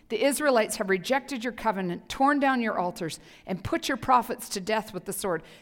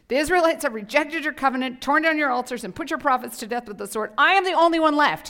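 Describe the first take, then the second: First: It is read in a plain voice. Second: It is read in a whiny voice.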